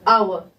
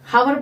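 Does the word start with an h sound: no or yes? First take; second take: no; yes. First: The word begins with a vowel sound. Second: The word begins with an h sound. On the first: The speaker calls it right. "आवर बोलेंगे" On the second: The speaker calls it wrong. "हावर बोलेंगे, नहीं बोलेंगे"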